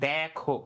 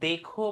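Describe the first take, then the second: First: The first vowel is an open ae sound. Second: The first vowel is a closed e sound. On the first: The speaker calls it right. "আমরা বলি দেখো, দে এ যুক্ত করি" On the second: The speaker calls it wrong. "আমরা কিন্তু দেখো বলি না"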